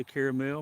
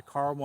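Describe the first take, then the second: First: Caramel as CARE-uh-mel; caramel with an "air" vowel and a clear final "mel"; three-syllable caramel. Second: Caramel as CAR-mul; caramel with an "ar" vowel, middle syllable dropped; two-syllable caramel. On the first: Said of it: "I say caramel". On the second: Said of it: "Some people say caramel". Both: Shown as a demonstration.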